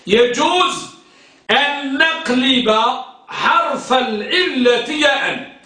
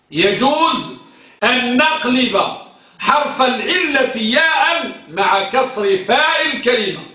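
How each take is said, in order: First: Slowed, stressing each phrase for dictation; deliberate dictation pace. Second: Said in the usual way. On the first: Shown as a demonstration. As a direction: spell it out slowly for the class. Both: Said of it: "ركز،".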